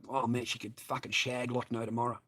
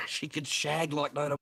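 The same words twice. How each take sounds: First: Said in the usual way. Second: Laughing repeat of the line. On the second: Real, not acted. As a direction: chuckle through it.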